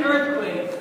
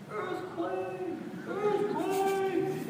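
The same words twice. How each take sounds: First: Loud, full-voiced retold scream. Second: High, drawn-out scream held back in volume; mock scream. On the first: Wet neighbor running down the hallway, screaming. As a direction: imitate a panicked yell close by. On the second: Neighbor screaming from the shower, distant mock scream. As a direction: imitate a distant panicked scream. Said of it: "out in the shower screaming".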